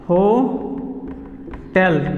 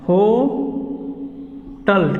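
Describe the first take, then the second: First: The second syllable sounds like 'tel'. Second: The second syllable sounds like 'tal'. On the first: The speaker calls it right. "तो इसको हमेशा बोलना क्या है" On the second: The speaker calls it wrong. "ये जो है ये गलत है"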